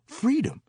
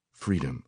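First: Very high, yearning cry; old singer of spirituals. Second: Said in the usual way. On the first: A narrator's reading. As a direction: lift the word high like a moan. Old woman names her love.

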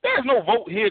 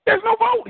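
First: Said in the usual way. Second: Preached high. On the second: Shown as a demonstration.

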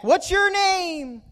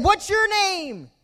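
First: High, slow echoed call; stretched-out high holler in reply; echo yelling back. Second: High, slow, drawn-out shout; high-pitched acted call; boy calling out. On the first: Retold or imitated. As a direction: copy the boy's shout like an echo. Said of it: "they s-, yelled back". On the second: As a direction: holler the question into the woods. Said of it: "he yelled out".

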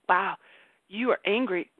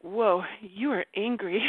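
First: Gently name the feeling, unhurried; calm noticing. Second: Slow, calm naming of her own anger; calm noticing. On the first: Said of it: "just be like". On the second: Retelling the mouse moment, calm and slow. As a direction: speak slowly and gently, just noticing the anger. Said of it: "and I was like". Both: Retold or imitated.

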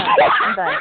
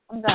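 First: High squeaky laughing protest. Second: Said in the usual way. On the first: Real, not acted. Host jokingly quits the callers.

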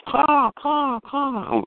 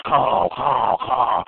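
First: High-pitched imitation of a faraway crow; thin, high crow mimicry; distant real crow. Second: Eight-hundred-pound crow. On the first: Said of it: "way back in the distance, a crow goes". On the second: Retold or imitated. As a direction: caw like a huge, heavy crow. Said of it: "that eight hundred pound crow goes".

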